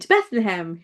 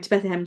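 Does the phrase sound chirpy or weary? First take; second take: chirpy; weary. First: It is said in a chirpy, light tone. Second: It is said in a weary, heavy tone. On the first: The phrase still sounds fresh and childlike. "it was quite chirpy ... really light, not heavy" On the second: The phrase has become tiresome through repetition. "Oh, here we go to Bethlehem, to Bethlehem again"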